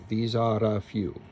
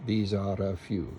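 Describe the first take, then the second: First: The R is a quick tapped sound. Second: The same.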